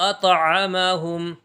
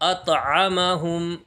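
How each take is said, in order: No difference in how they are said.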